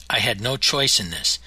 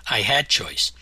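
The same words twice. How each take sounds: First: Said in the usual way. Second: "had" picked out as the strongest word; stress on HAD. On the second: A narrator's reading. Narrator contrasting this with no choice, stress on "had". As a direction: lean on "had" to set up the contrast.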